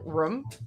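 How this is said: The vowel is short, like 'rum'. "two O's are an- a U in my mind"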